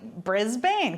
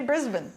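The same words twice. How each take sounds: First: It is said the American way. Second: It is said the Australian way. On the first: This is how it looks when read from the spelling. The speaker calls it wrong. "for us Americans, it looks like Brisbane" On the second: This is how the locals say it. The speaker calls it right. "but they say Brisbane"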